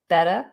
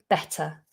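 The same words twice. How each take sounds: First: The middle T sounds like a D. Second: It is said in standard British with a clear T. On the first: "American variations... drop that T... It goes more like a D" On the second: "if you're just going from R P version"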